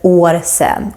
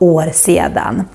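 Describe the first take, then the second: First: A separate r and s, short second word. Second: A separate r and s, full two-syllable word. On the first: "instead of år sen" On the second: "or år sedan"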